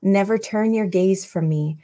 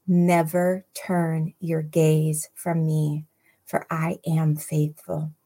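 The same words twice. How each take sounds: First: Said in the usual way. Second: "Never turn your gaze from me" drawn out word by word; slow right down so every word sinks in; slow, deliberate repeat. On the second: Real, not acted. Preacher repeating the verse so listeners hear that, slow and deliberate. Rereads after "Did you hear that?.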